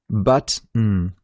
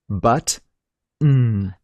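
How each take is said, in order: First: A short pause separates the two parts. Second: A long pause separates the two parts. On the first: "try and link the t and the n by reducing the pause between them" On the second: "Split the word button into two parts and pronounce them separately. Do it as slowly as you need"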